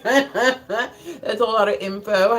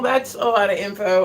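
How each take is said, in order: First: Laughing. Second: Said in the usual way. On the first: Real, not acted. Repeats the line, laughing slowly.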